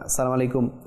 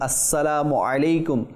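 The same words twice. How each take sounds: First: The consonants are pronounced loosely and imprecisely. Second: The consonants are pronounced carefully and precisely. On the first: The greeting may not count as a proper prayer. The speaker calls it wrong. "অনেকে সঠিকভাবে উচ্চারণ করে না" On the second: The greeting counts as a proper prayer. The speaker calls it right. "সঠিক উচ্চারণ"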